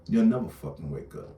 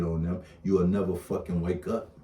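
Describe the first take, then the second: First: Never punched higher and harder; stress on never. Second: Said in the usual way. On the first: Real, not acted. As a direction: hammer the word never home. Repeats the warning.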